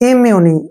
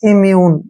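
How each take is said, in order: First: The word ends with an added 'ee' vowel. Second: The word ends on the 'n' sound. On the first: "ई का जो उच्चारण है यहाँ पे ई हो जाएगा" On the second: "इम्यून भी पढ़ सकते हैं हम इसको"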